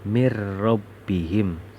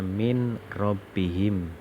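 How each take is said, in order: First: The n merges into a doubled r sound. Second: The n sound is kept before the r. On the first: "bacanya harus" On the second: "kalau kita lihat tulisannya"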